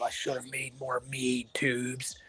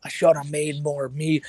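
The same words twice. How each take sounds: First: Slow, soft, lightly voiced streamer impression; Cobra impression. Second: Cobra impression. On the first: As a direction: drag it out, mumbling and quiet. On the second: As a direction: lean into the line, slow and firmer. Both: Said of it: "every time I do a Cobra impression".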